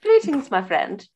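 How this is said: It is said in a posh-sounding voice.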